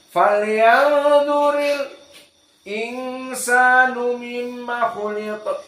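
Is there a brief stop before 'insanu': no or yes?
yes. A brief stop comes after the l before insanu. "dibacalah Hamzah dengan saqt"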